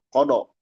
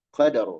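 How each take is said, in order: First: The vowels sound like o. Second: The vowels sound like a. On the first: The speaker calls it wrong. "hati-hati jadi kodo" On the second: The speaker calls it right. "Ro-nya tebal"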